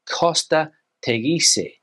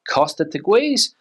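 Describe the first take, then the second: First: It is said with a Spanish pronunciation. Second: It is said with an English pronunciation. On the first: The speaker calls it right. "How would you say it in Spanish?" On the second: The speaker calls it wrong. "I've heard a lot of people say"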